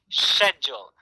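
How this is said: The word begins with an sh sound. "the U K, they say schedule. Sh- schedule"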